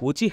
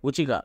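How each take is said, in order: First: The last syllable starts with an h sound. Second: The last syllable starts with a k sound. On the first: The speaker calls it right. "ఉచిహ అని" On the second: The speaker calls it wrong. "ఉచికా చేస్తారు"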